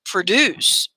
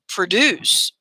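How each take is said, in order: First: The stress is on the second syllable. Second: The stress is on the second syllable.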